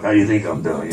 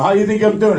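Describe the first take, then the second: First: Very low, grumbling mock retort; grumbled retort. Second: Open, indignant retort in own pitch. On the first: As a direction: grumble it deep in the throat. First take, grumbled to himself. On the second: Retold or imitated. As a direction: throw the question back at her indignantly. Second take, open outburst at her.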